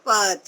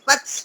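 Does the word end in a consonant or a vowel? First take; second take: vowel; consonant. First: The word ends with a final a vowel. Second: The word ends on a bare consonant sound. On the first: The speaker calls it right. "हलंत वाला नहीं आएगा पूरा अ जुड़ा हुआ है" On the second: The speaker calls it wrong. "पच ऐसा नहीं"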